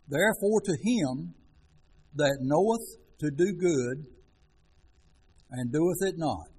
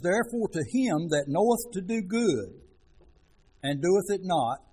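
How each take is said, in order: First: The verse is read very slowly. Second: The verse is read at a normal pace.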